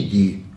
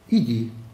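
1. Это произносится резко, как твёрдый приказ. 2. Это произносится мягко, как нежное пожелание. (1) "То есть повелительное наклонение" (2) "Типа, было бы хорошо, чтобы ты, засранец, наконец пошел. Это сослагательное наклонение"

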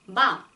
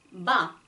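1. b는 숨을 조금만 내쉬며 터뜨려요. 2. b는 숨을 조금만 내쉬며 터뜨려요.

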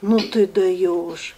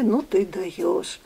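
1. Фраза звучит раздражённо и с досадой. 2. Фраза звучит удивлённо и с восхищением. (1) "Там можно и другие слова говорить, но на камеру я не могу их сказать" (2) "Те же самые слова, сказанные с другой интонацией"

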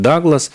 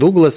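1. Имя произносится по-английски. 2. Имя произносится по традиционной русской манере. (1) "сейчас на английский манер многие говорят Даглас" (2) "она произносилась как Дуглас"

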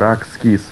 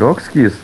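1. В первом слоге гласный а. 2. В первом слоге гласный о. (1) "а Ракскиз" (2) "не Рокскиз"

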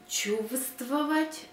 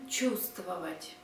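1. Перший звук v вимовляється. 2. Перший звук v не вимовляється. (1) "Spelling чувствовать" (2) "pronunciation чувствовать"

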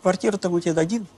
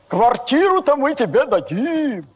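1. Реплика произнесена просто, без всякой игры. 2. Реплика произнесена аффектированно, манерно. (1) "Просто так скажи" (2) "вот так вот, знаешь, когда говорят"

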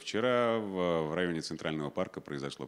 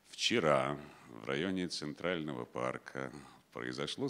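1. Предложение читают очень быстро. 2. Предложение читают медленнее. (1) "Очень быстро" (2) "Да зачем так быстро? ... Вот так хорошо"

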